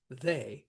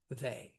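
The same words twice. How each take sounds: First: They given a full beat; stressed they. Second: They dropped low and soft; unstressed they. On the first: Teacher giving the normal iambic reading, they stressed. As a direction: put the weight on they. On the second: Teacher showing the weak half of a trochee, unstressed they. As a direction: let they fall away as the weak beat. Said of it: "we're not gonna hit they". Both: Shown as a demonstration.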